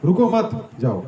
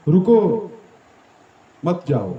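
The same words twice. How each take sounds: First: "रुको मत" run together, then "जाओ"; pause after मत. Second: Loud "रुको", long pause, then "मत जाओ"; pause after रुको. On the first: Speaker showing devotees the opposite meaning, "रुको मत" joined before "जाओ". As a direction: join "मत" to "रुको", break, then "जाओ" so it means go. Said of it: "या फिर". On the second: Speaker showing devotees one meaning, long pause after "रुको". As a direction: break after "रुको" so it means stay. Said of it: "इसको ऐसे बोल सकते हैं". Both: Shown as a demonstration.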